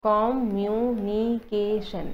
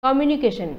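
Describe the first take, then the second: First: communication very slow, in five drawn-out syllables. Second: Said in the usual way. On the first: Shown as a demonstration. Teacher demonstrating five syllables, communication slowly broken up. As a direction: stretch and separate every syllable of communication. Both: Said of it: "ইয়াতে পাঁচটা syllable হ'ব".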